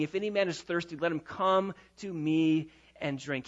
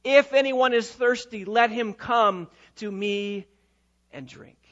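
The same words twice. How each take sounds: First: Said in the usual way. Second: Raised, impassioned call, slowing and dropping at the end; passionate cry. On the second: Acted. Preacher voicing Christ's invitation at the feast, passionate cry. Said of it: "cries out with great emotion and with great passion".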